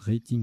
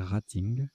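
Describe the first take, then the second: First: The word is pronounced with an English accent. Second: The word is pronounced with a French accent. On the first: "je prononce rating à l'anglaise" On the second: "il faut prononcer rating"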